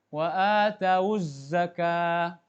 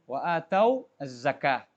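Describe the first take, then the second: First: The waw takes a u vowel, linking onward. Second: The final waw stays vowelless, not joined on. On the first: "Namun diwasal, disambung bacanya, wawnya itu harus didhammahkan" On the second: "Wawnya sukun"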